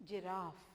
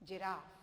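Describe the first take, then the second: No difference in how they are said.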